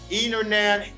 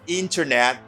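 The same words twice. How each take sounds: First: The T after the N is dropped entirely. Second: The T after the N is clearly pronounced. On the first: "they don't pronounce the T in these words" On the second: "They pronounce the T"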